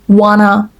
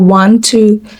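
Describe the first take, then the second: First: It is reduced and run together as one word. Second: It is said in full as two separate words. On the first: "wanna instead of" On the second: "instead of want to"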